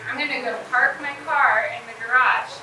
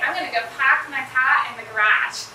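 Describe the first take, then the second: First: It is said in a neutral American accent. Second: It is said in a Boston accent. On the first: "in normal, like, neutral American accent, I would say" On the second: "a Boston person will say"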